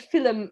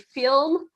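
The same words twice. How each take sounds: First: It is said the Irish way. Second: It is said the non-Irish way.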